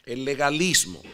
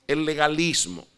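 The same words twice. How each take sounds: The two takes are said the same way.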